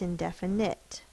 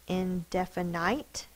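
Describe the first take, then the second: First: The last syllable has a short I sound. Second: The last syllable has a long I sound. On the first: The speaker calls it right. "It's indefinite" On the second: The speaker calls it wrong. "We do not say indefinite"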